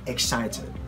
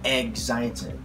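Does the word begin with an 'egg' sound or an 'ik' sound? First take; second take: ik; egg. First: The word begins with an 'ik' sound. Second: The word begins with an 'egg' sound. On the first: The speaker calls it right. "This is without the G, without egg" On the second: The speaker calls it wrong. "I don't know why people say excited. Maybe because they just want to emphasize the word egg"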